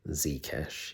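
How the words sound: The Z is pronounced 'zee', American style.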